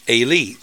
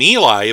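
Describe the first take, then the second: First: It sounds unlike the English name Eli. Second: It sounds just like the English name Eli. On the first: The speaker calls it right. "but which probably should be Eli" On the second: The speaker calls it wrong. "which we usually say just like the name Eli"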